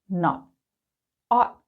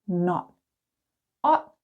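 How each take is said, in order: Both takes have the same delivery.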